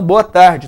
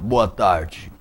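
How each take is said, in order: First: The voice is projected forward and clear. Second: The voice is held back and muffled. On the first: The speaker calls it right. "A voz tem que ser para lá" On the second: The speaker calls it wrong. "a voz abafada"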